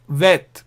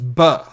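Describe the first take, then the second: First: It begins with a v sound. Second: It begins with a b sound. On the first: The letter has no dot. "v sound" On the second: The letter has a dot. "b sound"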